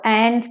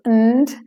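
First: The word is said fully, with a clear vowel. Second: The word is reduced, weak and unstressed.

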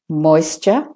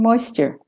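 First: It is spoken in a British accent. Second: It is spoken in an American accent.

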